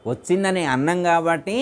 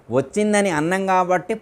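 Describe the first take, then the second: No difference in how they are said.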